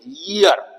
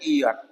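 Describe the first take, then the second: First: The word starts with a y sound. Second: The word starts without a y sound. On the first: The speaker calls it right. "य की आवाज आनी चाहिए" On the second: The speaker calls it wrong. "बिल्कुल गलत है"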